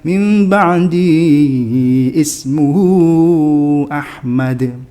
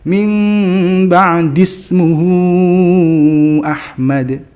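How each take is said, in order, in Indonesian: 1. Kata kedua mulai dengan vokalnya sendiri. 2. Kata-katanya nyambung tanpa vokal di awal. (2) "jangan dibaca ismuhu"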